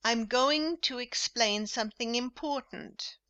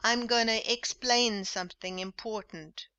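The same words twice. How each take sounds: First: "going to" spoken in full, clearly; careful, complete "going to"; formal full form. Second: "gonna" run together as a quick "gunna"; casual clipped "gonna"; informal gonna. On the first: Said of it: "formal English with full forms". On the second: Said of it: "repeat this informal English". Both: Shown as a demonstration.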